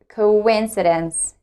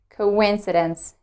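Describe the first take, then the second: Both takes have the same delivery.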